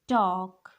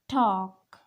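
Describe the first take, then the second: First: The L sound is silent. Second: The L sound is silent.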